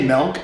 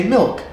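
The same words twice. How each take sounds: First: "milk" with an eh vowel, like "melk"; Michigan "milk". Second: Said in the usual way. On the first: Shown as a demonstration. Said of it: "So you say milk". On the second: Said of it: "I say milk".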